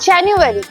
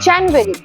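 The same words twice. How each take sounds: First: The middle u sound is clearly pronounced. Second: The middle u sound is left out. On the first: The speaker calls it right. "ঠিকটা হলো জানুয়ারি। Don't skip the ইউ sound" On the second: The speaker calls it wrong. "অনেকেই বলে জানুয়ারি"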